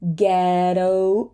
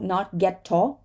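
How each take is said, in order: First: The middle t is a quick flap. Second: The middle t is a full t. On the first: The speaker calls it right. "a flap T" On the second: The speaker calls it wrong.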